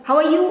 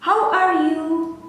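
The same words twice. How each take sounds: First: "How are you?" said fast and bright; quick how are you. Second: Slow how are you. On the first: Teacher showing the quick version of the greeting. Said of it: "Atau cepat". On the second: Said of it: "di bahasa Inggris". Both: Shown as a demonstration.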